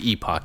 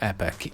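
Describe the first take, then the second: First: It is said with a British pronunciation. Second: It is said with an American pronunciation. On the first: "if you're British" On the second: "if you're American"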